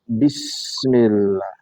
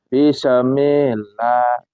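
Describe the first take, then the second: First: The s sound is said with a strong hiss. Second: The s sound is plain, without a strong hiss. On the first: It is read following the reading rules. The speaker calls it right. "Ini sin harus ada suara mendesis" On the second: It is read like a small child, without the reading rules. The speaker calls it wrong. "Ya masih kayak anak T K aja"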